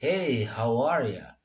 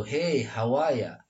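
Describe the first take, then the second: First: Slow "how are ya" with R kept in "are"; you becomes ya. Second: "how are ya" as "how-wah-ya"; ya with dropped R. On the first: Teacher models American greeting, you becomes ya. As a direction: reduce you to "ya" after a linked "how are". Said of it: "you-nya ini biasa lebih cenderung mendekat ke A". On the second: Teacher offers the alternative greeting, ya with dropped R. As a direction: leave out the r in "are" and end on "ya". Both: Shown as a demonstration.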